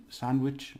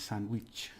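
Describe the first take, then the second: First: Said in the usual way. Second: "sandwich" softer, with an "ee" vowel; Spanish pronunciation. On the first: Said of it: "they pronounce it with their letter". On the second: Shown as a demonstration. Teacher contrasting with English sandwich, Spanish pronunciation. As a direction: make "sandwich" end in "weech". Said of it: "it's the E sound in there".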